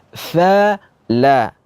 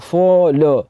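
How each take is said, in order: First: Fala with the mouth opened wide, thin a. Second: Fala with a closed mouth, sounding like folo. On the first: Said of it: "Mulut kita harus terbuka". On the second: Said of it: "Mulutnya tidak terbuka dengan benar". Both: Shown as a demonstration.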